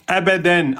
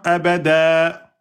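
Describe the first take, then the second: First: The word ends with an n sound. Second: The word ends on a lengthened vowel.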